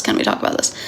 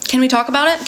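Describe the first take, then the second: First: Breathy whisper. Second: Said in the usual way. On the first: Shown as a demonstration. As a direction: whisper the question. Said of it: "repeats the line, last whispered". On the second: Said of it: "repeats the line in voices".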